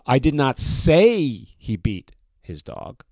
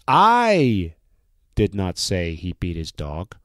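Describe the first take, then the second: First: The stress is on the word say. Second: The stress is on the word I.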